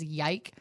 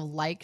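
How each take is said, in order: First: "yike" with a y sound for the l; child's mispronunciation. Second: Said in the usual way. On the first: Shown as a demonstration. Aunt showing her niece's speech slip, "yike" starting with y. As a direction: open "yike" with a y, as in yes. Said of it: "she says yike". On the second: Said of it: "she still says, instead of like".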